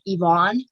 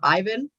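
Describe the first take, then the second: First: The name is pronounced like Yvonne. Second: The name is pronounced like Ivan. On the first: The speaker calls it wrong. "I always pronounced it Yvonne" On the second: The speaker calls it right. "instead of Ivan"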